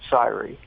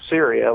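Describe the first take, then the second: First: It is pronounced differently from the country's name. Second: It is pronounced like the country's name. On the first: "but they pronounce it Syri" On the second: "it's spelled uh, Syria, like the, the country"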